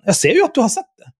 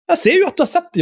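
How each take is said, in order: First: Said in the usual way. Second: Insistent repeat. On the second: Real, not acted.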